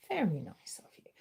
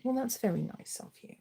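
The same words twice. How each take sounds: First: Soft, breath-only murmur; hushed, whispery repeat; whispered pet-talk. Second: Said in the usual way. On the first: Real, not acted. Thanking the pet, softer repeat.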